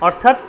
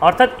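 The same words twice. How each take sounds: Both takes have the same delivery.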